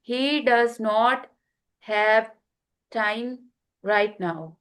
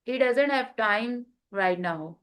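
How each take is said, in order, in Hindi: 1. 'Does not' को दो पूरे शब्दों की तरह बोला जाता है। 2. 'Does not' छोटा होकर एक शब्द बन जाता है, 'doesn't'। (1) "ये था विदाउट कॉन्ट्रैक्शन" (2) "विथ कॉन्ट्रैक्शन"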